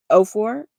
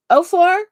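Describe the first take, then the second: First: Said in the usual way. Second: High, loud double-take on four; pitched-up surprised echo; surprised question. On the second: Real, not acted. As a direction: check the year in disbelief.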